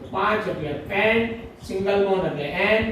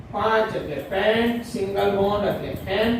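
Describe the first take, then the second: The two takes are said the same way.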